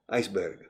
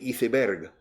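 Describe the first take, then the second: First: It is pronounced the way Latin Americans say it. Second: It is pronounced the way people in Spain say it. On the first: "in all of Latin America, they say iceberg" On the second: "here in Spain, they say iceberg"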